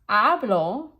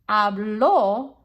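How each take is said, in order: First: The stress is on the first syllable. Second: The stress is on the last syllable. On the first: I speak, in the present. "present tense, I speak" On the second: He or she spoke, in the past. "putting that stress on the end of the word"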